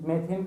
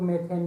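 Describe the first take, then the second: First: मेथिन ending in a "theen" sound; pronounced "methin". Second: मेथेन ending in a "then" sound; pronounced "methen". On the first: Teacher showing students one reading of the English word, मेथिन said as "me-theen". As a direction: say मेथिन with "ee" in the second syllable. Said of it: "मेथिन पढ़ते हैं कुछ लोग". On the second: Teacher showing students the alternative reading, मेथेन said as "me-then". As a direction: say मेथेन with "e" in the second syllable. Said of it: "मेथेन भी पढ़ते हैं". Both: Shown as a demonstration.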